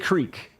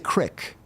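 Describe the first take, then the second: First: The vowel is a long 'ee' sound. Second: The vowel is a short 'i' sound. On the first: This is how the speaker says it. "I say creek" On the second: This is how some other people say it. "people say crick"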